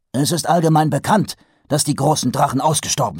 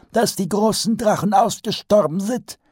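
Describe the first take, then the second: First: Brusque. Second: Much higher wizard voice repeating "dass die großen Drachen ausgestorben sind"; pompous old wizard. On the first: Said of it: "stellte der Patrizier brüsk fest". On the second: Archchancellor repeats Vetinari's words in his high old voice. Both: A narrator's reading.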